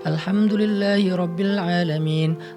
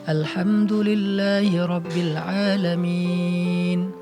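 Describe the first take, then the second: First: It is recited somewhat faster. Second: It is recited slowly and unhurriedly. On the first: The reading aims to cover a whole section in an hour. "bacanya agak lebih cepat sedikit" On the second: The reading is for reflection and healing. "Itu namanya perlahan-lahan"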